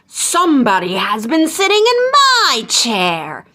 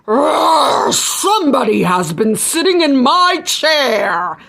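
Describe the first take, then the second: First: The voice is of middling pitch and size. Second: The voice is big, deep and growling. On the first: The middle-sized bear is speaking. "said in his middle-sized voice" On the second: The biggest bear is speaking. "growled in her big voice"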